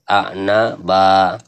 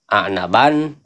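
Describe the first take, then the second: First: The word ends with an open vowel. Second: The word ends with an n sound. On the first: The speaker calls it right. "Qaf berhenti jadi a'naba" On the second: The speaker calls it wrong. "Jangan ban"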